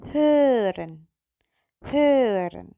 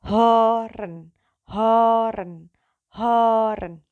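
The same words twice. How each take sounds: First: Hören with a rounded ö; German ö. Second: Hören with a plain open o, louder. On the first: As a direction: pout and say hören. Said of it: "kalau ada titik duanya". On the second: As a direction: say hören with an o, not ö. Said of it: "hören tanpa O, tanpa ada titiknya". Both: Shown as a demonstration.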